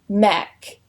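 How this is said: The vowel is a short ek sound. "pronounced with an ek"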